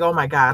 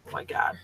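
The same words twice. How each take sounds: First: Said in the usual way. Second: Breathless whispered dread; whispered panic. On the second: Retold or imitated. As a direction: whisper it like you're doomed. Panicked inner thought, caught speeding.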